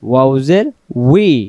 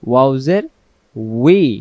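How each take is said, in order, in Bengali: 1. শেষ অক্ষর গোলাকার ঠোঁট দিয়ে শুরু হয়, 'wee'। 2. শেষ অক্ষর গোলাকার ঠোঁট দিয়ে শুরু হয়, 'wee'।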